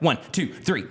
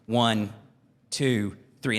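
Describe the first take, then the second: First: The numbers are rattled off quickly together. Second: The numbers are counted at an even, slow pace. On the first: The counter is cheating to shorten the time. The speaker calls it wrong. "that punk kid that's like" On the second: Each number marks a real second. The speaker calls it right. "you got three seconds"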